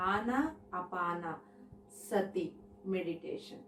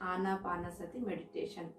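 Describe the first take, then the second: First: "ఆనా అపాన సతి meditation" said slowly, part by part; term broken into parts. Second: Said in the usual way. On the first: Shown as a demonstration. ("ఆనా అపాన సతి meditation" పదాలను విడదీసి నెమ్మదిగా)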